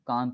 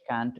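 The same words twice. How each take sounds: First: It is said in a British accent. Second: It is said in an American accent. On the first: "Can't is British" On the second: "can't is more American"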